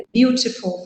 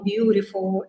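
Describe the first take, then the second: First: "beautiful" with a crisp, distinct t; careful pronunciation. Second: "beautiful" with the t softened to a quick flap; native-style reduction. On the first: Teacher showing students the careful form, "beautiful" with a clear t. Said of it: "não pronunciam direito as palavras". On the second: Teacher mimicking natives who eat syllables, "beautiful" with a flapped t. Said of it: "comem palavras ou sílabas". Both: Shown as a demonstration.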